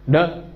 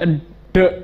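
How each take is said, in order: First: The d bounces out immediately, unpressed. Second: The d is held, adding an extra sound. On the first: The speaker calls it right. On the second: The speaker calls it wrong. "kalau ditahan dulu itu nambah satu huruf"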